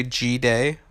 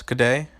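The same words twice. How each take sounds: First: "G-Day" with G as the letter name gee. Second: "good day" squeezed into a quick g'day; g'day run together. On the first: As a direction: say "G-Day" as gee-day, two full syllables. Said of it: "Was I supposed to say". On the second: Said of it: "how you pronounce good day". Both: Shown as a demonstration.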